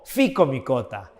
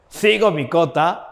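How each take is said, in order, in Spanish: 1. La palabra empieza con sonido f. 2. La palabra empieza sin sonido f. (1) "algunos la, la pronuncian como f" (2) "En español de España se diría cigomicota"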